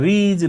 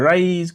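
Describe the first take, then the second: First: The vowel is a short i sound. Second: The vowel is a long eye sound. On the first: The speaker calls it wrong. "ৰিজ নাই কোৱা" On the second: The speaker calls it right. "ৰাইজ কৈছো আই sound হৈছে"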